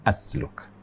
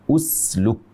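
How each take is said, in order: First: The first vowel is an a sound. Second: The first vowel is a u sound. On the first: It means I insert. The speaker calls it wrong. "bukan asluk" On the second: It is a command: insert. The speaker calls it right. "kita baca usluk"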